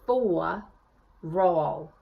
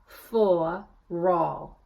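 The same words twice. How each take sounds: Both takes have the same delivery.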